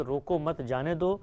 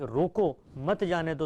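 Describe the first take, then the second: First: روکو مت said as one unit, then جانے دو; pause after مت. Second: روکو set apart, then مت جانے دو as one unit; pause after روکو. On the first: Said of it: "اب اس کو اس طرح پڑھیں". ("روکو مت" ملا کر، وقفہ، پھر "جانے دو") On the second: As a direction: break right after روکو, join مت to جانے دو. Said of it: "اگر اس کو اس طرح پڑھ لیں". ("روکو" پر وقفہ، پھر "مت جانے دو" ملا کر) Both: Shown as a demonstration.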